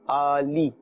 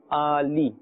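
No difference in how they are said.

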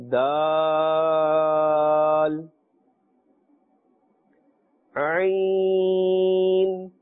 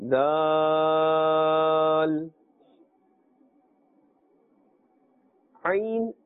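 Both takes have the same delivery.

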